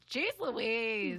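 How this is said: It is said in an annoyed, irritated tone. "when it was annoyed, it would sound like"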